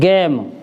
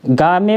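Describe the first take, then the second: First: It is one syllable with an 'ay' vowel. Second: It is two syllables with an 'aa' vowel. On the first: The speaker calls it right. "इसको हम पढ़ेंगे गेम" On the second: The speaker calls it wrong. "नहीं पढ़ेंगे इसको"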